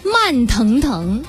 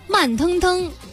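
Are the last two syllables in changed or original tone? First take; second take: original; changed. First: The last two syllables keep their original tone. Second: The last two syllables are said in a changed tone. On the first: "第二种情况就是它本调啊" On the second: "但实际上口语当中会直接变成"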